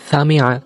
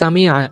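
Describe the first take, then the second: First: The first sound is a soft s. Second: The first sound is a sharp s. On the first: The speaker calls it wrong. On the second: The speaker calls it right.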